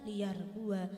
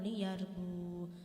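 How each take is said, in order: First: The final waw carries a short vowel. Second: The final waw is closed without a vowel. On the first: The reciter continues on without stopping. "Jika wasol wanya dibaca pendek" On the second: The reciter stops at this word. "jika wakof wanya dibaca sukun"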